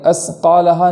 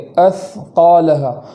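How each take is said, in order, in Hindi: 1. यह व्यंजन S ध्वनि की तरह बोला जाता है। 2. यह व्यंजन TH ध्वनि की तरह बोला जाता है। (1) "सीन की तरह नहीं पढ़ेंगे" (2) "ज़ुबान को हल्का सा बाहर निकाल कर और आवाज़ जारी करते हुए"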